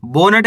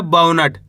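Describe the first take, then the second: First: "बोनट" starting with a pure "bo"; wrong o vowel. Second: "बाउनट" starting with a gliding "bau"; correct au vowel. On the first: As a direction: say "बोनट" as bonat, with a long o. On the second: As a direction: say "बाउनट" as baunat, au rather than o. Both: Shown as a demonstration. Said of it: "बोनट ही नहीं पढ़ना".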